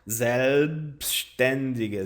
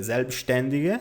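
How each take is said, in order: First: "selbstständige" stretched as ZELB-shten-di-gue; "selbstständige" slow, in clear chunks; slow pronunciation demo. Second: Said in the usual way. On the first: Shown as a demonstration. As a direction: draw out "selbstständige" so learners can copy. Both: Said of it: "assim você consegue pronunciar".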